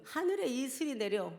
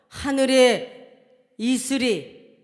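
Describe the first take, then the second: First: Said in the usual way. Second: 하늘에 stretched slowly and called out loud; loud slow proclamation of 하늘에; drawn-out proclamation. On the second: Shown as a demonstration.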